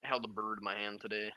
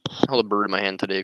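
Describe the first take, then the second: First: Hushed, quick trial read of the opener; soft first take. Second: Said in the usual way. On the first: Shown as a demonstration.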